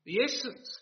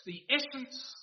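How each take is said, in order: First: "The essence" lifted up on a questioning rise; rising first take. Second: "the essence" landed with a firm fall on essence; falling second take. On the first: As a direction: set up "The essence" with a rising tune. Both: Shown as a demonstration. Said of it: "repeated for emphasis".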